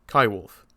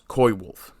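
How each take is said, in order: First: The first syllable sounds like 'ky'. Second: The first syllable sounds like 'coy'. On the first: The speaker calls it right. "If you're going to say coyote, you say Kai Wolf" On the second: The speaker calls it wrong. "David Suzuki mispronounces it as coy wolf"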